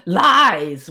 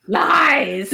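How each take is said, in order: First: Said in the usual way. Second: High, hammed-up cry of Lies; dramatic villain line. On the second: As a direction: throw out Lies like a melodramatic king. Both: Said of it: "which is your favorite line".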